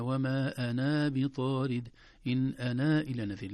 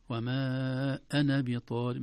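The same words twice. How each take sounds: First: أنا with a long final alif while reading on; wrong reading. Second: أنا with a short final a in continuous reading; correct reading. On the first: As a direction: show the mistaken long alif. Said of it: "لا، ما قلنا هكذا". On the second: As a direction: recite slowly, no long alif. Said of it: "ما قلنا". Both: Shown as a demonstration.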